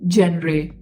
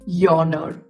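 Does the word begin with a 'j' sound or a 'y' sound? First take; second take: j; y. First: The word is read literally, starting with 'j'. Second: The word starts with 'yawn', like feeling sleepy. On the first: The speaker calls it wrong. "if you just go about it literally, literally, you will say it is genre" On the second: The speaker calls it right. "But it's not genre, it's yawner"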